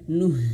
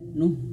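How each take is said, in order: First: The final h is breathed out clearly. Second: The final h is weak and barely heard. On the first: The speaker calls it right. "tapi nuh, dan huruf H betul-betul dialirkan" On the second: The speaker calls it wrong. "bukan hanya sekadar"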